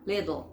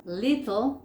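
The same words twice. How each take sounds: First: "little" said like "liddle"; American flapped T. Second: "Little" with a true T in the middle; unflapped T in "Little"; crisp T. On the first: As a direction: turn the T of "little" into a D. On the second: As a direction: sound the T of "Little" clearly. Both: Shown as a demonstration. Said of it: "te cambian una T por una D".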